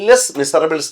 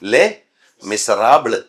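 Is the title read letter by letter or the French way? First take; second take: letter by letter; French way. First: Every letter is sounded, including the final s. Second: Final letters stay silent, French style. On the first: The speaker calls it wrong. "ലെസ് മിസറബിൾസ് എന്ന് എഴുതിയിട്ട്" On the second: The speaker calls it right. "ലേ മിസറാബിള് എന്ന് പറയണം"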